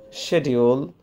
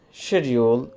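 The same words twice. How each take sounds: First: It is said with a British pronunciation. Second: It is said with a British pronunciation.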